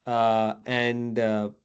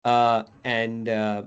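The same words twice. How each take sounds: The two takes are said the same way.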